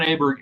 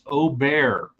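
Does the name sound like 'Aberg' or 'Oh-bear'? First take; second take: Aberg; Oh-bear. First: The name is said like 'Aberg'. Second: The name is said like 'Oh-bear'. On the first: The speaker calls it wrong. "it's not Aberg" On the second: The speaker calls it right. "it's Aubert"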